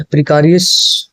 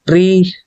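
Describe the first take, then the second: First: प्रिकारियस said pri-KA-ri-yas, the wrong way; wrong pronunciation. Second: प्रीकेरियस said pree-KAIR-ee-us, lifted and clear; correct pronunciation. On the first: Teacher first reads the word wrongly to the class, mispronounced. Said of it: "प्रिकारियस नहीं हुआ". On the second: Teacher gives students the right pronunciation, clearly modelled. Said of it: "pronunciation क्या हो जाएगी?". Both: Shown as a demonstration.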